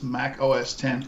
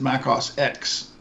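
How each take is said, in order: First: The final X is read as ten. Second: The final X is read as the letter. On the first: The speaker calls it right. "you realize it's Mac O S ten" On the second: The speaker calls it wrong. "he said Mac O S X"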